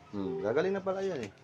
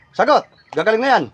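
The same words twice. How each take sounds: First: Lower, much softer musing; quiet acknowledgement. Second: Loud, insistent interrogation; forceful demand. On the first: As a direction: take in the answer softly. Acknowledges the answer just given. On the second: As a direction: press hard for the answer. Presses spirit for an answer. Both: Real, not acted.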